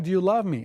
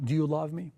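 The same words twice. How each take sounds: First: Louder, pressing, stress on love; insistent third asking. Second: Said in the usual way. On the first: Acted. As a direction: push harder the third time. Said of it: "Third time". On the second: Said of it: "He asked him second time".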